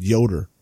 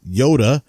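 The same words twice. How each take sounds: First: Yoder ending in an R sound. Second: Yoda ending in a plain open uh; Yoda, ending on a clean uh sound. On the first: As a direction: say Yoder with the final R clearly voiced. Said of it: "said that I said Yoda". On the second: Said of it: "said that I said Yoder". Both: Shown as a demonstration.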